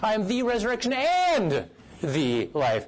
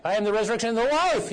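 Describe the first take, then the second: First: Slow build to a big "and", then drop for the rest; stress on AND. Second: Quick run up to a high, loud "life"; "life" swelled big at the end; stress on LIFE. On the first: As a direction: hammer the word "and". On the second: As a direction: save all the punch for "life". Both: Shown as a demonstration. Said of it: "putting it out for each word".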